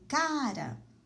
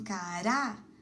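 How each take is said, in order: First: The stress is on the first syllable. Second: The stress is on the last syllable. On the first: It is an informal word used with people you know. "a sílaba tônica é o K, é a penúltima sílaba" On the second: It is an edible tuber. "a sílaba tônica é a última"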